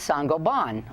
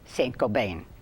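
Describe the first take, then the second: First: The name is said with a French pronunciation. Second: The name is said with an American pronunciation. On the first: This is how the company itself says it. "he told us it's pronounced Saint-Gobain" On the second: This is how most Americans say it. "most Americans say Saint-Gobain"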